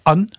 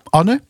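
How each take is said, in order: First: The name is pronounced the French way. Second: The name is pronounced the Dutch way.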